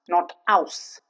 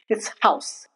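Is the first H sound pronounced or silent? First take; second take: silent; pronounced. First: The H at the start is silent. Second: The H at the start is pronounced. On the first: The speaker calls it wrong. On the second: The speaker calls it right.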